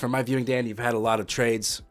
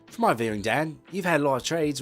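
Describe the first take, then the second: First: It is read in the speaker's usual accent. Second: It is read in a put-on British accent.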